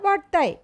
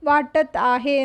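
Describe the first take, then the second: First: The words are run together into one short form. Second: Both words are said fully and separately. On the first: This is the casual, everyday spoken form. "ഒരു colloquial സ്റ്റൈലാണ്" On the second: This is the careful, written form. "ക്രിസ്റ്റൽ clear ആയിട്ട്"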